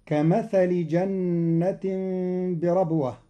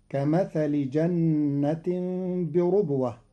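First: بربوة said birabwa; fatha on ra. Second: بربوة said birubwa; damma on ra. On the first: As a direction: open the ra of بربوة with a. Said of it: "قرأ قالون كلمة بربوة". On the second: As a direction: round the ra of بربوة with u. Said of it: "بضم الراء". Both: Shown as a demonstration.

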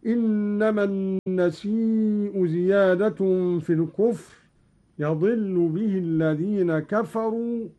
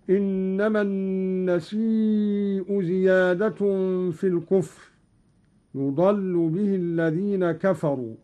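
First: يضل said yadillu with open ya and kasra on dad. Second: Said in the usual way. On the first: Shown as a demonstration. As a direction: read يضل as yadillu, not yudallu. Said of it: "هكذا". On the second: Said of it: "قرأ قالون".

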